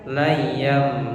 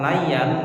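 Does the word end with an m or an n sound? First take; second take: m; n. First: The word ends with an m sound. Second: The word ends with an n sound. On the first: The speaker calls it right. "tapi layam" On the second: The speaker calls it wrong. "Jadi bukan layan"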